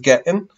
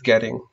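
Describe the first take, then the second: First: The t is a glottal stop. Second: The t is a quick flap. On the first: "we'll jump back and forth from the glottal and the flap" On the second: "we'll jump back and forth from the glottal and the flap"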